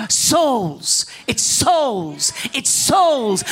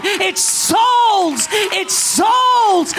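First: "souls" drawn out and falling; stress on souls. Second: "souls" cried high and long; impassioned cry. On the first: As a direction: lean hard on each "souls". Preacher repeats his key word. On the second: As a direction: cry out "souls" at full preaching force. Preacher's climax on repeated word. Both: Real, not acted.

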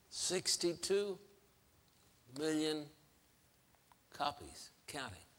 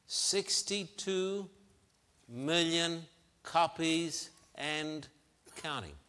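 First: Hushed emphasis. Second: Deliberate, spaced-out delivery, raised in pitch; slow emphasis. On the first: Preacher repeating sales figure, hushed and spaced out. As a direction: let it sink in, fading to very quiet. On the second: Preacher citing novel sales, slowly emphatic. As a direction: let each word of the figure land. Stressing a startling sales figure. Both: Real, not acted.

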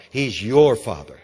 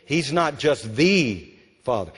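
First: "your" punched, then falling; stress on YOUR. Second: "the" lengthened as "thee"; stress on THE. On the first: Preacher makes God personal to listeners, stressing "your". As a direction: hit "your" hard and let the rest drop. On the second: Preacher contrasts a distant God, stressing "the". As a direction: set "the" apart with a long vowel. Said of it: "we need that revelation". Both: Shown as a demonstration.

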